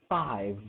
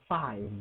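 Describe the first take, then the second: Both takes have the same delivery.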